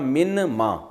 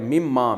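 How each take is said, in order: First: The n is sounded separately before ma. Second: The n merges into a doubled m sound. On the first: "असल में था मिन मा"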